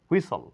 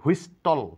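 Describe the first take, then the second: First: The t sound is left out of the word. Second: The t sound is pronounced in the word. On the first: The speaker calls it right. "এখানে টি এর কোনো sound নেই" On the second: The speaker calls it wrong. "এখানে হুইস্টল নয়"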